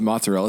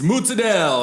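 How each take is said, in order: First: It is said in a standard American accent. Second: It is said in a Jersey Italian accent.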